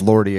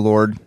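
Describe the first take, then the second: First: The name is said as two syllables. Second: The name is said as one syllable. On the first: The speaker calls it wrong. "I will never, ever refer to Lord as Lordy again" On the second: The speaker calls it right. "refer to Lord"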